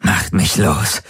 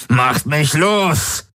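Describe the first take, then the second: First: Restrained demand. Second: High, drawn-out screech. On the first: Captive demanding to be released, restrained fury. First demand, before the screech. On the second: Captive demanding to be released, screeching. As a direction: screech it slowly at a much higher pitch. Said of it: "kreischte er". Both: A narrator's reading.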